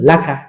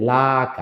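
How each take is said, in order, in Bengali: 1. সিলেবলগুলো দ্রুত একসাথে বলা হয়। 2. সিলেবলগুলো টেনে এবং আলাদা করে বলা হয়। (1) "তাড়াতাড়ি বলবেন" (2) "এরকম একটা টান হবে, কিন্তু টান দেওয়া যাবে না"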